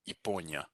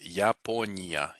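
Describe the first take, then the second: First: The first vowel is a reduced 'ee' sound. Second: The first vowel is a full 'ya' sound. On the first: The speaker calls it right. "it gets reduced here because it's not stressed" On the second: The speaker calls it wrong. "if you pronounce it fully"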